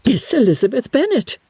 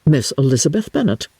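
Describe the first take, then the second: First: Higher, shocked echo of the name Miss Elizabeth Bennet; astonished repeat. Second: Said in the usual way. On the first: Acted. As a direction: throw the name back in disbelief. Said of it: "repeated Miss Bingley". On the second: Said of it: "replied with great intrepidity".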